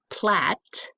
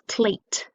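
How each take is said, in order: First: "plat" with a short flat A, as in cat. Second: "plate" said slowly with a long A, like the letter's name. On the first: Teacher to parent showing the wrong vowel: "plat" with a short A. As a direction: clip "plat" to a short A to show the wrong reading. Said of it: "So the word is plate". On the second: Teacher to parent showing the right vowel: "plate" with a long A. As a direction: stretch out "plate" so the A says its name. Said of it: "not plat". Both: Shown as a demonstration.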